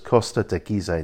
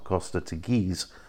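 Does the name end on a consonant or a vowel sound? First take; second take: vowel; consonant. First: The final e is sounded as an extra syllable. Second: The name ends on a consonant, no final syllable. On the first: The speaker calls it right. "the E on the end becomes another syllable. So it's Costa de Gizeh" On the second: The speaker calls it wrong. "not Costa de Giz, as we would say in English"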